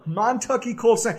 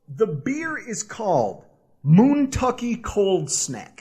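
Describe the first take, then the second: First: Montucky with a short o, as in Montana; corrected pronunciation. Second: Moontucky with a long oo sound, like moon; mispronounced brand name. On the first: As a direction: say Montucky like Mon-tucky, not moon. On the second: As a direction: say Moontucky as moon-tucky, slowly. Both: Real, not acted. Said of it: "Or Montucky. There's a one O".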